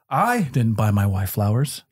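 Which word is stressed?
I. The stress is on the word I.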